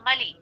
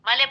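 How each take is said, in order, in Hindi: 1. शब्द का अंत 'ee' स्वर से होता है। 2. शब्द का अंत 'e' स्वर से होता है। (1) "मले नहीं होगा मली" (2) "कुछ लोग मले, मले पढ़ते हैं"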